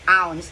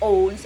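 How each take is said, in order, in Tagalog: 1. Ang patinig ay tunog na 'ow', nagtatapos sa s. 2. Ang patinig ay tunog na 'oh', nagtatapos sa z. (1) "It should be ounce" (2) "It shouldn't be owns"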